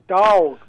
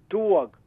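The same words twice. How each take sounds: First: The word is said in a Texas accent. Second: The word is said in a Brooklyn accent. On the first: "Here in Texas, it's a dog" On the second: "I grew up in Brooklyn, we pronounce this word dog"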